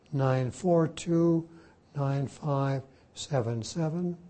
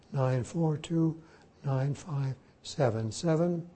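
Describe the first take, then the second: No difference in how they are said.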